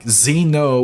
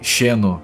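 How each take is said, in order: First: The word begins with a 'z' sound. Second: The word begins with a 'sh' sound. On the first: "don't say X as Z like you guys do" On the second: "we say Sheno"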